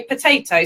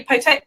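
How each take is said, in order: First: "potato" with the first O softened to "puh". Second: "potato" with a full O in the first syllable. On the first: Host corrects her own demonstration, softened-O potato. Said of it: "we soften the O". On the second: Host explains how the British pronounce it, full-O potato. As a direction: say "potato" as poh-TAY-to. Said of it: "well, not potato". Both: Shown as a demonstration.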